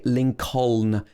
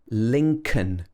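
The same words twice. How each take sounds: First: The middle L sound is pronounced. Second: The middle L sound is silent. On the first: The speaker calls it wrong. "Here we don't say Lincoln" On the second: The speaker calls it right. "The second L is silent. It should be Lincoln"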